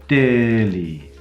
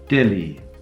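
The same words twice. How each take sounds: First: The first vowel is long. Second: The first vowel is short.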